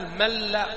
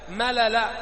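First: The two l sounds merge into one doubled l. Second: The two l sounds are said separately with a vowel.

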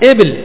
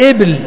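Both takes have the same delivery.

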